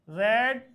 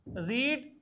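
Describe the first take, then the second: First: The vowel is short, as in red. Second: The vowel is long, as in reed. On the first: It is the past-tense second form. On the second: It is the present-tense first form.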